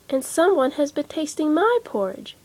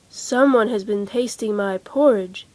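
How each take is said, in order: First: It is said in a middle-sized voice. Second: It is said in a great big voice.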